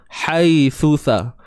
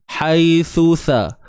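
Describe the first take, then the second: The two takes are said the same way.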